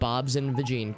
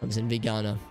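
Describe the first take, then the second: First: The last word ends with an 'een' sound. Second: The last word ends with an 'ana' sound. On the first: The speaker calls it wrong. "I've been saying it wrong all these fucking years" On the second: The speaker calls it right. "Know your meme page says it's Bob's and vegana"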